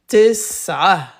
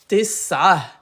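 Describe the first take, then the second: Both takes have the same delivery.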